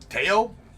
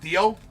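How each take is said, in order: First: The name begins with a hard t sound. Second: The name begins with a soft th sound. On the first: The speaker calls it right. "Is, is how it's pronounced? It's Teo?" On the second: The speaker calls it wrong. "You don't pronounce it Theo?"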